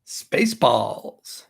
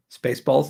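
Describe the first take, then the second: First: "Spaceballs" stretched very slowly; slow drawn-out title. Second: Said in the usual way. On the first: Acted. Naming the movie, slow and drawn out.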